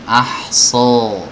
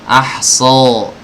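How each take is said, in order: No difference in how they are said.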